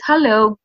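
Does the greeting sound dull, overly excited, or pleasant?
pleasant. The greeting sounds confident and pleasant.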